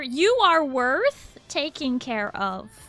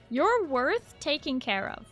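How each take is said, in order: First: It is said loudly. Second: It is said at normal volume.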